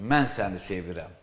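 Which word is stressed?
mən. The stress falls on the word mən. It is the speaker, not someone else, who loves. "Yəni, başqası sevmir, mən səni"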